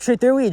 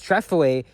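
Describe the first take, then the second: First: The middle consonant is a th sound. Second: The middle consonant is an f sound. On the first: "Same thing with Trethewey Drive" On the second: "they pronounce it as Trefaway"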